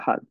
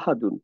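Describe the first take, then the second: First: The word ends abruptly on a bare 'd'. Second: The word ends with a full 'un' ending. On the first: The reader pauses at this word. "একটা সুকুন দিয়ে পড়তেছি" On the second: The reader does not stop on this word. "এখানে হচ্ছে দুই পেশ ছিল"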